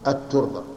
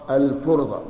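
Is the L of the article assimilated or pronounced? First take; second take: assimilated; pronounced. First: The L merges into a doubled T sound. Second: The L sound of the article is clearly pronounced. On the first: The speaker calls it wrong. "ولا نقول الترضى" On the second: The speaker calls it right. "لكن هنا ما نجعلها شمسية، نجعلها قمرية"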